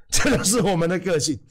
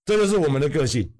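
First: Saying it through a laugh; laughing at own joke while speaking. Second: Said in the usual way. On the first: Real, not acted. Repeat with a laugh.

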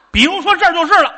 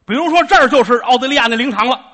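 First: Laughing. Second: Said in the usual way. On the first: Shown as a demonstration.

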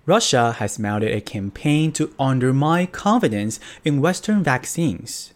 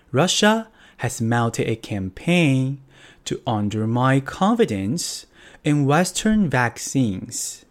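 First: Said in the usual way. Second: Russia has mounted a campaign, read slowly and carefully; slow it right down so learners can follow; slow repeat. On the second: Shown as a demonstration. Teacher repeating the news sentence slowly for students. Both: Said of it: "英文要怎么说呢".

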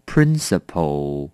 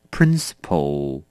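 The two takes are said the same way.

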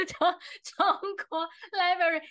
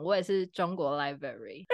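First: Breaking into giggles on 中国library, higher; can't get the pun out for laughing. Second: Said in the usual way. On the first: Real, not acted. Host retelling pun to listeners, laughing. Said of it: "大家听得懂吗？". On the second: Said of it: "好安静".

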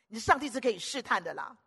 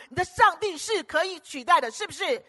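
First: Said in the usual way. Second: Higher and louder; louder preaching peak; rising preacher's push. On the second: Acted. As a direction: build it up to a ringing climax. Escalating repeated mocking phrase.

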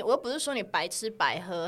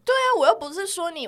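First: Said in the usual way. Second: Emphatic. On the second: Real, not acted.

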